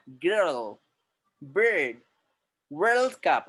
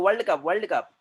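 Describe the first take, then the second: First: American-style accent, long curled r; foreigner's English accent. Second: Quick वर्ल्ड cup with open "wald"; वर्ल्ड as "wald", no curled r; Indian pronunciation. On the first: Teacher showing how foreigners speak, American-style accent. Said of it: "foreign लोग कैसे बोल रहे हैं?". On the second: Teacher mimicking how we say it, r-less वर्ल्ड. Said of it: "अपन बोलते हैं". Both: Shown as a demonstration.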